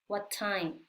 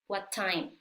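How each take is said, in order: First: The words are joined with one t sound. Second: The same.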